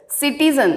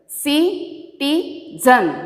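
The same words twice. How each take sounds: First: Said in the usual way. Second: "Citizen" slowly split into ci, ti, zen; syllable by syllable. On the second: Shown as a demonstration. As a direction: pause after each syllable of "Citizen". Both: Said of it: "Now I am splitting the words".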